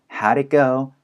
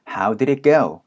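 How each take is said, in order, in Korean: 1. 단어들이 서로 이어지고, 'did'는 빠르게 줄어듭니다. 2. 각 단어가 완전하고 따로따로 발음됩니다.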